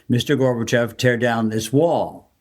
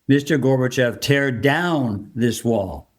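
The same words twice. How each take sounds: First: It is read in a plain, neutral way. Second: It is said with pointed, insistent inflection. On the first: It is an ordinary reading of the line. "Typically, for proper reading, you would say" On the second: The speaker is specific and full of conviction. "He was very specific about what he wanted Gorbachev to do"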